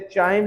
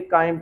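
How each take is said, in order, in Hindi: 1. ये शब्द ch ध्वनि से शुरू होता है। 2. ये शब्द k ध्वनि से शुरू होता है। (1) "इसे चाइम नहीं पढ़ेंगे" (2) "काइम पढ़ेंगे, काफ कैंची वाले की इसकी प्रोनाउंसिएशन आई"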